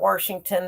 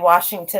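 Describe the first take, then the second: First: It is said with an added R sound. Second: It is said without an R sound.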